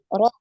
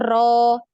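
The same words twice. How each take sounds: First: The r vibrates only once. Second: The r is trilled with many vibrations. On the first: The speaker calls it right. "Tapi getaran sekali" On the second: The speaker calls it wrong. "jangan sampai terlalu banyak getarannya... bukan ro"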